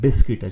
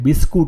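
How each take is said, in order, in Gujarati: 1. બીજો ભાગ 'kit' જેવો બોલાય છે. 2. બીજો ભાગ 'koot' જેવો બોલાય છે. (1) "બિસ્કિટ જ કહેવાય છે" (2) "બિસ્કુટ નહીં કહેતા"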